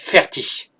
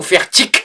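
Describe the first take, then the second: First: The word has a standard German pronunciation. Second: The word has a southern German pronunciation.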